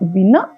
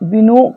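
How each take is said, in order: First: The second syllable ends in an a vowel. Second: The second syllable ends in an o vowel. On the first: The speaker calls it right. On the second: The speaker calls it wrong. "వినో కాదు"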